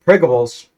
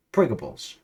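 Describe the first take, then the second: First: Shouted Pringables. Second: Said in the usual way. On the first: Acted. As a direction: bellow Pringables out at full volume. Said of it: "again, the Pringles".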